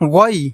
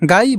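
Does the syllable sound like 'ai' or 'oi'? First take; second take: oi; ai. First: The vowel sounds like a rounded 'oi'. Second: The vowel sounds like an open 'ai'. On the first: The speaker calls it right. "বলতে হবে গই" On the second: The speaker calls it wrong. "গাই বলা যাবে না"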